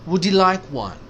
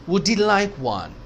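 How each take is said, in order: Both takes have the same delivery.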